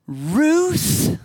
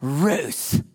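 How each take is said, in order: First: High, loud rising Ruth? full of reproach; shaming. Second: Ruth dropped flat and falling, weary disappointment; shaming. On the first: Parent shaming a disobedient child by name, loud and high. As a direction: say Ruth like an exasperated accusation. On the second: Parent scolding a repeat offender, flat disappointed sigh. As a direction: let Ruth sink with disapproval. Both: Shown as a demonstration. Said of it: "in a shaming way".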